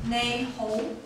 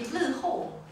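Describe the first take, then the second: First: It is pronounced the Cantonese way, nei ho. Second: It is pronounced the Hokkien way, li ho. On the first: "in Cantonese we pronounce it as nei ho" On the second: "in Hokkien, it will be li ho"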